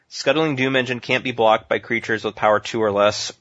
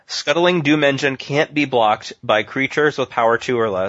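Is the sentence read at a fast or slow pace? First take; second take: fast; slow. First: It is read at a normal, quicker pace. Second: It is read at a slower, deliberate pace.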